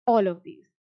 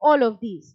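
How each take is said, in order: First: Said in the usual way. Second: All of these, said loud and firm; emphatic answer. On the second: Shown as a demonstration. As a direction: punch all of these, louder. Teacher repeats answer for emphasis.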